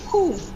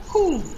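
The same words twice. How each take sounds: The two takes are said the same way.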